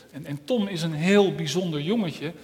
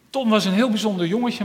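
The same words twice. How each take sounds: First: Said in the usual way. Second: Higher, louder and quicker, stress on heel; lively retelling. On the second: Shown as a demonstration. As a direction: tell it again with new excitement, "heel" lifted. (opgewekt, hoger en luider met nadruk op "heel")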